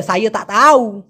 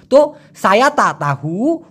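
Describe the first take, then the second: First: সাইয়ে তা তাউ slowly with the sounds run together; colloquial Malay. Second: সায়া তা তাহু said slowly with every sound clear; standard Malay. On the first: Teacher contrasting the casual local form, slow. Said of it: "ওরা বলে". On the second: Teacher giving the proper form first, slow and clear. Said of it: "যারা একদম শুদ্ধ বলে". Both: Shown as a demonstration.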